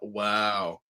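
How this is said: It sounds unimpressed and disappointed.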